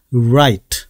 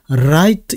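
First: "right" with lips pushed forward, starting like "wa"; rounded-lip R. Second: "right" with the tongue hitting the palate on the R; wrong tongue-touch R. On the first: 입술이 앞쪽으로 살짝. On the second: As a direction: misdemonstrate "right" with a tapped, Korean ㄹ-like R. 혀가 입천정에 닿았구나라는 느낌을 주시면은. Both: Shown as a demonstration.

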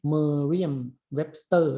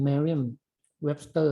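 First: Merriam-Webster said the Thai way, slowly; Merriam-Webster in a Thai-style reading; Thai pronunciation. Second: Merriam-Webster with a slight แอ vowel, slowly; Merriam-Webster pronounced like an English speaker; native English pronunciation. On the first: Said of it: "ภาษาไทยเรียก". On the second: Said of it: "มันจะแบบออกสระแอนิดๆอะ". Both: Shown as a demonstration.

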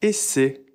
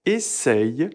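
First: Essaie said ese with no y sound; second variant. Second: Essaye said esɛj with the y sound; first variant. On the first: Teacher showing the essaie spelling variant. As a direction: essaie ending in a clean e. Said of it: "on accepte également". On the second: Teacher showing the essaye spelling variant. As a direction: essaye ending in ɛj. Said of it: "Vous pouvez dire". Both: Shown as a demonstration.

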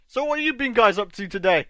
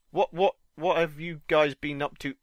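First: "what have you been guys up to" with the words jumbled; wrong word order. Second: Said in the usual way. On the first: Real, not acted. Streamer greeting viewers with the words in the wrong order. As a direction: trip over the word order. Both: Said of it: "I worded that completely wrong".

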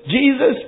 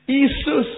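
First: Said in the usual way. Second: Jesus said as isu, no j sound; Indian Jesus. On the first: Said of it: "Look at it". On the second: Shown as a demonstration. Preacher showing how Indians say Jesus.

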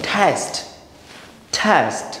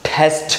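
First: "টেস্ট" as "thest", puff only on the first T; first T aspirated. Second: "টেস্ট" as "thesth", a puff on both Ts; both Ts aspirated. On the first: Teacher models the rule, "টেস্ট" with only first T aspirated. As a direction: breathe on the opening T of "টেস্ট", plain last T. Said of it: "আমি একটাকে ঠ বলবো". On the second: Teacher shows an awkward version, "টেস্ট" with both Ts aspirated. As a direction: breathe hard on the first and last T of "টেস্ট". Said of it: "দুইটাই যদি ঠ বলি". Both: Shown as a demonstration.

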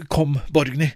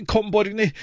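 First: Calm, firm mother's voice at normal pitch; steady and decided, no rush. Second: Mother calling her daughter urgently. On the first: Mother leads Borgny into Langberggata, firm. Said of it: "sier bestemt". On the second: Mother calls Borgny away from the spark rain, urgent. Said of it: "roper mor". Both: Acted.

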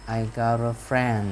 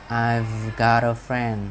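First: "I got a friend" with no clear V; slow "I got a friend", V left out; V barely sounded. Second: Very slow "I've got a friend", V held; "I've" with a buzzing V, then "got a friend"; clear voiced V. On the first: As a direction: let the V of "I've" vanish into "got". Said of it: "chữ V đó nó không phải là cái âm". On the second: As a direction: draw out the V in "I've" before "got". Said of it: "rõ cái chữ V ra cũng được". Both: Shown as a demonstration.

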